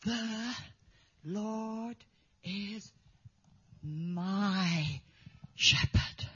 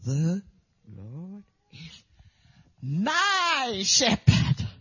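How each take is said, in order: First: The, Lord, is, my, shepherd, each word apart with long pauses, soft; halting, word by word, soft; boy's halting recitation. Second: The, Lord is, my shepherd, broken up, the last words slow and louder; halting, then swelling on my shepherd; boy's halting recitation. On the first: The boy showing his faith, halting word by word. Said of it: "He went like this". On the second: The boy reciting all day, halting then swelling. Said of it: "He would go". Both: Retold or imitated.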